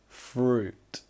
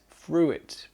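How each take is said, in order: First: The vowel is a single long oo sound. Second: The vowel is sounded out following the spelling. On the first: The speaker calls it right. "fruit is pronounced with that long oo sound" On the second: The speaker calls it wrong. "because they say it like they read it"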